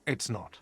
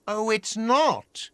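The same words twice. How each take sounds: First: "its" stressed, "not" dropped quietly; low and much softer, trailing off; muttered low. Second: "not" drawn out high, then falling; slow, higher, leaning hard on "not"; sarcastic stress on not. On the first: Quiet low second take. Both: Acted.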